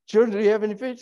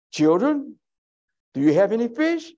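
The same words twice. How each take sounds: First: High, sing-song question; mock woman asking. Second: High, gentle call to the disciples; voicing Jesus. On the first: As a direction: ask it like a woman calling out. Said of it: "some woman out there, uh, trying to do it". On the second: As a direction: call out high and kindly across the water. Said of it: "Jesus said to them".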